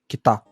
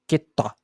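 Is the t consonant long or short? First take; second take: short; long. First: The t is short, with no pause. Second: The t is held long, almost a pause. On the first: It means north. "que significa norte" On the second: It means cut. "que significa cortado"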